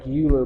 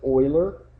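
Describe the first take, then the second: First: The name is said the way it is spelled. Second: The name is said differently from its spelling. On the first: The speaker calls it wrong. "Looks like Euler" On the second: The speaker calls it right. "but you pronounce it Euler"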